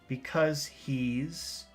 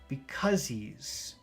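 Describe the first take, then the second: The two takes are said the same way.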